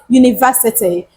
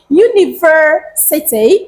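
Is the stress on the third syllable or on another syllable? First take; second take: another; third. First: The stress is not on the third syllable. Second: The stress is on the third syllable. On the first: The speaker calls it wrong. "and not university" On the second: The speaker calls it right. "We place our stress on the word ver"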